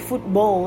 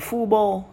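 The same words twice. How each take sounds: First: The T is briefly held before the B. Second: The T is dropped completely from the word. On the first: The speaker calls it right. "Giống như từ football ấy" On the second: The speaker calls it wrong. "Bỏ T đi thì nó sẽ đọc thành football. Nó là sai"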